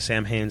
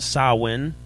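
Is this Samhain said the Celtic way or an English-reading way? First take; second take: English-reading; Celtic. First: The word is read aloud as English spelling. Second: The word is said in its Celtic pronunciation. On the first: The speaker calls it wrong. "I can't not say Samhain. So we know we're doing it wrong" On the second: The speaker calls it right. "It's technically pronounced Samhain"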